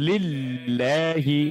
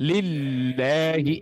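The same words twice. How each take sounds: Both takes have the same delivery.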